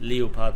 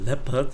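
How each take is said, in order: First: It is said with a German pronunciation. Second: It is said with an English pronunciation. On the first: "it's called leopard in German, so I insist on pronouncing it that way" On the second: "or a leopard if you're English and insist on it"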